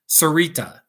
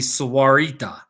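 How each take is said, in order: First: The middle 'wa' syllable is dropped. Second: The middle 'wa' syllable is kept. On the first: The speaker calls it wrong. "that is a terrible pronunciation of that town" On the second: The speaker calls it right. "it'll be Sawarita"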